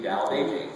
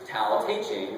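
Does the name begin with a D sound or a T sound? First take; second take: D sound; T sound. First: The name begins with a soft D sound. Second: The name begins with a hard T sound. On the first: The speaker calls it right. "it's supposed to be" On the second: The speaker calls it wrong. "many people pronounce it"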